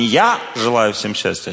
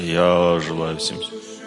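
First: It is said in an ordinary surface voice. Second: It is said in a deeper, inward voice.

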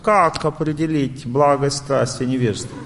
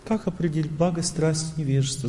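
First: The question is asked in an agitated, pushy way. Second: The question is asked in a calm, gentle way. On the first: The asker is dominated by passion. "Значит, вы в страсти, преобладание страсти" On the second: The asker is in a state of goodness. "Значит, вы в благости"

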